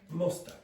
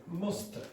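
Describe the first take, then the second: No difference in how they are said.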